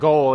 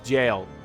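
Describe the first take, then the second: First: It begins with a hard G sound. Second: It begins with a J sound. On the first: The speaker calls it wrong. "It's not goal" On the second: The speaker calls it right. "it's jail"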